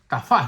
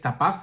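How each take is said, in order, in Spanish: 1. La consonante del medio es un sonido f. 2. La consonante del medio es un sonido p. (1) "dice él" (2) "la versión que yo tengo acá dice tapaz"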